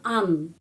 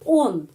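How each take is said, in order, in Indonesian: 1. Vokalnya tereduksi menjadi bunyi 'a'. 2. Vokalnya bunyi 'o' penuh. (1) "kenapa bukan an?" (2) "O dibacanya O tetap on"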